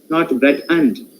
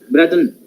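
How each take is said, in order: First: The word 'and' is full and strong. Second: The word 'and' is reduced and weak. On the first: The speaker calls it wrong. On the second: The speaker calls it right. "what is a weak form I have used? Just no"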